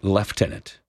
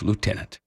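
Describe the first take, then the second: First: It is said the British way. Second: It is said the non-British way.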